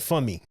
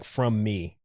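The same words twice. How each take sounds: First: The words blur together into something like 'fum my'. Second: Both words are said clearly with a full 'from'. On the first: "It sounded like from me" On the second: "it didn't sound like from me"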